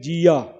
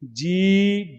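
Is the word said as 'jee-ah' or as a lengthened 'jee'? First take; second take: jee-ah; lengthened jee. First: The word ends with an added 'ah' vowel. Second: The word is a single, slightly lengthened 'ee'. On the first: The speaker calls it wrong. "ਕਈ ਵੇਲੇ ਨਾ ਕਈ ਇਹਦਾ ਉਚਾਰਨ ਕਰਦੇ ਆ ਜੀਆ" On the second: The speaker calls it right. "ਥੋੜਾ ਜਿਹਾ ਲਮਕਾ ਕੇ ਪੜੋਗੇ"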